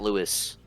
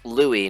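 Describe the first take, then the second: First: The final S is pronounced. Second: The final S is silent. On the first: The speaker calls it wrong. "not Louis" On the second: The speaker calls it right. "you don't pronounce that S at all. That's why it's Louis"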